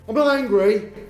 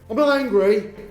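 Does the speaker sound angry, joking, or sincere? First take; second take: angry; angry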